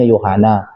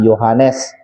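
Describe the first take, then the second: First: The name ends without the final s sound. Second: The name ends with a clear final s sound.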